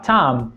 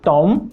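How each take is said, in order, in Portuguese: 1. O T é falado com sopro de ar. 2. O T é falado sem sopro de ar. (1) "começa a falar tom" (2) "parar de falar tom"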